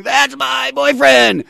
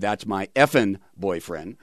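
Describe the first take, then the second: First: High, loud, slow imitated squeal of "boyfriend"; hammed-up proud teen girlfriend shrieking; mock shriek of a teenage fan; girlfriend's squeal. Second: Said in the usual way. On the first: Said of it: "His girlfriend is going". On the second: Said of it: "she said".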